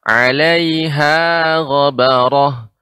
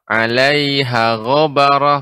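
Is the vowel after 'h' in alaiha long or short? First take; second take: long; short. First: The vowel after h in alaiha is long. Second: The vowel after h in alaiha is short. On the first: The speaker calls it right. "caranya adalah dengan diayun atau ditekan, ditinggikan" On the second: The speaker calls it wrong. "padahal ha di sini ada huruf mat"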